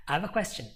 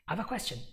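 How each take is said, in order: First: Said in the usual way. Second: Very fast, "have" almost gone; fifth gear. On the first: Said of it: "fourth gear". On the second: Shown as a demonstration. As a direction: rush it, drop the have. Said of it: "In fifth gear".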